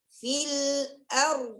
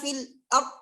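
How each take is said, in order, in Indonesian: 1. Bunyi r terakhir ditahan sebentar sebelum berhenti. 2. Bunyi r terakhir dipotong tiba-tiba. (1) "nampakkan dulu tawassutnya" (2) "Langsung kita bilang fil ar ar ar. Hilang tikrarnya itu. Hilang tawassutnya"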